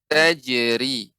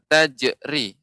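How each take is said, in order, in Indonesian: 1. Bunyi j memantul dengan halus tanpa hentian glotal. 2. Bunyi j dipotong dengan hentian glotal. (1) "dipantulkan tanpa ada hentakan ataupun ada hamzah" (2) "bukan tajri"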